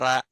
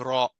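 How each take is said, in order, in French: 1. Le r est léger et fin, pas vélarisé. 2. Le r est lourd et épais, vélarisé. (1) "on dit pas ra" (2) "on dit ra"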